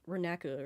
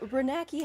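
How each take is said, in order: First: The name does not end with 'kee'. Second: The name ends with a 'kee' sound. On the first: The speaker calls it right. "it's Renaka or something" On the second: The speaker calls it wrong. "I'm pronouncing it wrong because it's not key"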